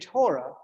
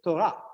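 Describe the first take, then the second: First: The word is said with an American accent. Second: The word is said with an Israeli accent. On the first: "that's an American thing" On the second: "in Israel, it'd say Torah"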